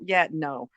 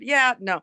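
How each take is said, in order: First: It is said in a sarcastic, mocking tone. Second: It is said in a positive, friendly tone. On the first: The answer is no, and it is an insult. "sometimes it's an insult. ... that's like a sarcastic thing to say" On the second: The answer is no, but the speaker stays pleasant. "so I sound positive"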